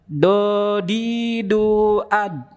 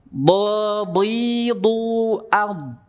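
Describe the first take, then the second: First: The consonant sounds like a heavy tongue-tip d. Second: The consonant is made with the tongue's side. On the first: The speaker calls it wrong. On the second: The speaker calls it right.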